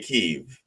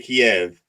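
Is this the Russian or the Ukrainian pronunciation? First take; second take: Ukrainian; Russian. First: The city name is said the Ukrainian way. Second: The city name is said the Russian way. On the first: This is how Ukrainians say the name. "the Ukrainians say Kiev" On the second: This is how Russians say the name. "the Russians say Kiev"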